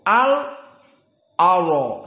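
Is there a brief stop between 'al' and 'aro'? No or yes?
yes. A brief stop falls after the lam. This follows the reading with a short silence. "sakt, berhenti dari lam sakinah al aro... seperti itu"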